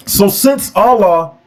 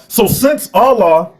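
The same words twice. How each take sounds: The two takes are said the same way.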